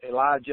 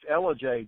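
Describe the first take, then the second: First: The name sounds like the name Elijah. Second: The name sounds like Ella followed by Jay. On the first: The speaker calls it wrong. "everybody will pronounce it Elijah" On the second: The speaker calls it right. "what it's Ella J"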